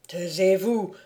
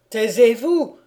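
First: Said in the usual way. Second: Frightened outburst. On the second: A narrator's reading. The count, pale and trembling, cuts off Conrad, frightened. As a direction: panic breaking through the repeat. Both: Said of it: "pâle et tremblant".

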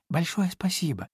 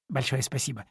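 First: Higher of two thankful voices; piglet's thanks. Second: Rabbit's thanks. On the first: (благодарно, голоском повыше) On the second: (благодарно, голосом пониже) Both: A narrator's reading. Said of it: "хором поблагодарили кролик и Чуня".

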